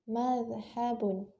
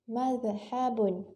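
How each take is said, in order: Both takes have the same delivery.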